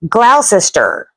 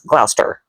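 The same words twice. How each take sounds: First: Every syllable of the spelling is sounded out. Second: It is clipped short with letters dropped. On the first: This follows how the name is spelled. "I look at this and I say" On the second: This is how locals say the name. "They pronounce this as"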